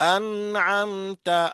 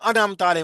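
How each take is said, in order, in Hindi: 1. म नरमी से अगली आवाज़ में बह जाता है। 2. म को एक अतिरिक्त उछाल के साथ छोड़ा जाता है। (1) "नरमी से अदा करके चले जाओ" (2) "इसमें कलकला कर देते हैं"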